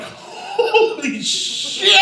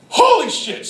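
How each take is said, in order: First: High, very drawn-out exclamation; stunned amazement. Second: High, brief exclamation at normal volume; short astonished exclamation. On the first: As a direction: stretch both words out in awe. Stunned reaction to the dive. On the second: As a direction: say it in one amazed burst. Same exclamation repeated, quicker. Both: Retold or imitated.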